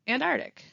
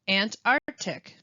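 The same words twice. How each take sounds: First: One sound in the word is dropped. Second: Every sound in the word is pronounced. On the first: The speaker calls it wrong. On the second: The speaker calls it right.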